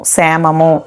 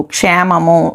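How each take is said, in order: First: క్షేమము said as semamu, the ksh softened to a plain s; plain s, no cluster; colloquial Telugu form. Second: క్షేమము with a clear ksh cluster, said as kshemamu; क्षेमम् जैसा स्पष्ट क्ष; formal Sanskrit form. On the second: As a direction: give క్షేమము its full ksh sound. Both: Shown as a demonstration. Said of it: "ప్రకృతి వికృతులు".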